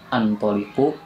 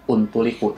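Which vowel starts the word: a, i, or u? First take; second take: a; u. First: The word begins with an a vowel. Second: The word begins with a u vowel. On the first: "bukan antoliku" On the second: "bukan untuliku"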